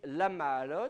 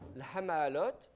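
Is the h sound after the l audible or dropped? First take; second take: dropped; audible. First: No h sound is heard after the l. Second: An h sound is heard after the l. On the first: "vous dites l'amaalot, vous ne prononcez pas le he" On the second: "ça fait l'ha, l'hamaalot"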